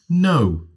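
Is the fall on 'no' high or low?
low. It starts mid-level and falls only slightly.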